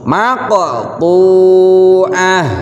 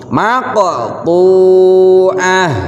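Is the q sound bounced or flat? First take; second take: bounced; bounced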